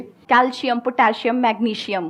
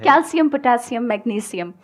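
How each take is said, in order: First: "कैल्शियम, पोटेशियम, मैग्नीशियम" with a sh sound before -ium; common mispronunciation. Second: "कैल्शियम, पोटेशियम, मैग्नीशियम" with s, ending -sium; corrected pronunciation. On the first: Teacher quizzing the class with the common sh pronunciation. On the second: Teacher giving the correct forms, s instead of sh. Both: Shown as a demonstration. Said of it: "sir, नहीं होता ये।".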